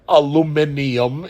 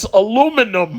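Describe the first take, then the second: First: The word has an extra syllable near the end. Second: The word has no extra syllable near the end. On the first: The speaker calls it wrong. "Where the fuck did you get those extra letters from? It's not aluminium" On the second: The speaker calls it right. "it's aluminum"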